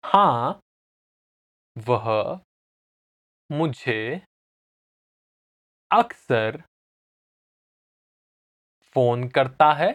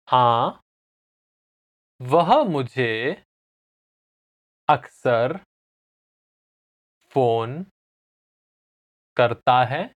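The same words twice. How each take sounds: First: Said in the usual way. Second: Slow repeat-after-me answer; long pauses between the words; slowly. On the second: Shown as a demonstration. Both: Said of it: "I'll say it again slowly".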